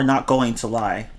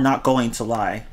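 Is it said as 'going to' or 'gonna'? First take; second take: going to; going to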